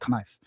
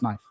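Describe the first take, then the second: First: The k is sounded before the n. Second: The k is silent before the n. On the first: The speaker calls it wrong. "clearly it's knife" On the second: The speaker calls it right. "the k is silent"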